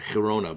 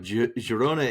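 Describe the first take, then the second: First: The name is said with Dutch-style pronunciation. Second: The name is said with plain, non-Dutch pronunciation. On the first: "I want to pronounce it Dutch style" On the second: "but no"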